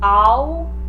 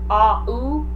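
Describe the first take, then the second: First: The two vowels blend into one gliding sound. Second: The two vowels are said as separate syllables. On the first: "smushing them together to make one new sound" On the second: "instead of"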